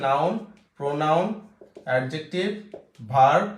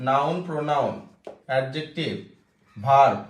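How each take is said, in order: Both takes have the same delivery.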